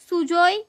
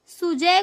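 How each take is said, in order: First: सुजोय with the a turned to o, Bengali style; Bengali accent. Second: Said in the usual way. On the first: Retold or imitated. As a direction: say सुजोय the way a Bengali speaker would. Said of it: "ए को ओ बोलते हैं बंगाली में". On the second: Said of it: "सुजोय बोलते हैं".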